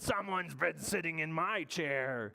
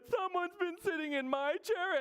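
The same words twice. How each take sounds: First: It is said in Big Bear's voice. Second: It is said in little bear's voice.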